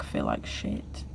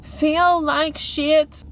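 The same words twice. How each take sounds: First: Low, slow and quiet glum admission; glum low mutter. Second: High, drawn-out dramatic moan; dramatic lament. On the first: Vlogger venting about her life, glum low mutter. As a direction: let it sink right down, dragged and soft. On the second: Vlogger overstating her bad mood, dramatic high lament. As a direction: stretch every word out high, milking the misery. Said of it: "I'm probably being very dramatic right now". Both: Real, not acted.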